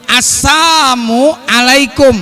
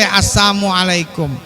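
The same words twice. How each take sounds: First: Every sound of the greeting is pronounced. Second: One sound of the greeting is left out. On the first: The speaker calls it right. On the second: The speaker calls it wrong.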